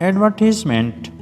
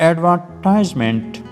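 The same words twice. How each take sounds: No difference in how they are said.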